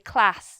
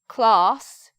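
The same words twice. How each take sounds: First: The vowel is a short, front 'a' sound. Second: The vowel is a long, back 'ah' sound. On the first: This is how people in the North say it. "in the North they would say class... the same vowel with the A pronunciation" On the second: This is how people in the South say it. "In the South, we make our, our vowels with R"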